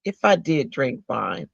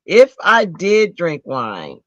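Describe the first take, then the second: First: Said in the usual way. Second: "if I did drink wine" slow and louder, each word weighted; slow emphatic repeat. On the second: Shown as a demonstration. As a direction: lean hard into "if I did drink wine", drawn out. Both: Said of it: "repeated with emphasis".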